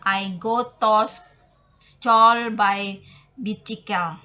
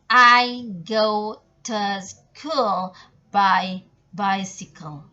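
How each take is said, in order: First: The words are pronounced as they are spelled. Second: The words are pronounced with English sounds. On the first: The speaker calls it wrong. "kalau orang yang belum tahu berbahasa Inggris, biasa dia me- membacanya langsung kayak gini" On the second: The speaker calls it right. "Langsung saja dibaca"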